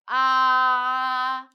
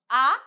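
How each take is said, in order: First: The pitch stays high and level throughout. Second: The pitch rises from middle to high. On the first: "first tone ... start with very high pitch and end with high pitch. So it's a flat one" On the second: "Second tone ... from nose to head"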